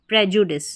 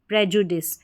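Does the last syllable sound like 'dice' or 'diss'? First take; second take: diss; diss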